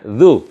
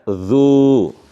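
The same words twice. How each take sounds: First: The vowel is short, one beat. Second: The vowel is held long, two beats. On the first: "Kalau ini pendek" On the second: "dibaca panjang ya"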